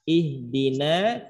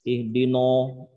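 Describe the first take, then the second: First: The vowel after n sounds thin, like a. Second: The vowel after n sounds dark, like o. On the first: The speaker calls it right. "No tapi na" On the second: The speaker calls it wrong. "Kadang-kadang nanya ngikut tebal. Ihdino, ihdino gitu"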